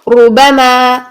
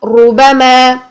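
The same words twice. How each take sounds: Both takes have the same delivery.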